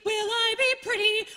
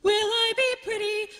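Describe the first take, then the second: No difference in how they are said.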